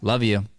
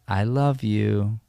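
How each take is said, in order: First: It is said in an angry, heated way. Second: It is said in a soft, tender way. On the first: The words are said in the middle of a fight. The speaker calls it right. "if we're supposed to be in a fight" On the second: The speaker means it affectionately. The speaker calls it wrong. "it shouldn't sound like I love you"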